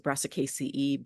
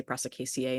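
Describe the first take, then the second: First: Brassicaceae ending in a long "ee"; professors' pronunciation. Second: Brassicaceae ending in "ay"; alternative pronunciation. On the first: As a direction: finish Brassicaceae on "see-ee". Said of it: "My professors used to pronounce it". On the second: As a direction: finish Brassicaceae on "see-ay". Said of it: "used to say Brassicaceae instead". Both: Shown as a demonstration.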